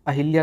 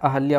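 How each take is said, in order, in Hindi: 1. 'h' ध्वनि के बाद 'i' स्वर आता है। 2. 'h' ध्वनि के बाद कोई 'i' स्वर नहीं आता है। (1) "अहिल्या नहीं होता है" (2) "ई की मात्रा इस पे नहीं होगी"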